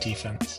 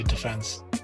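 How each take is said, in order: First: It is said with the American pronunciation. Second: It is said with the British pronunciation. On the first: "Now I'm in America, so I should say defense" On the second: "Every English part of me wants to say defense"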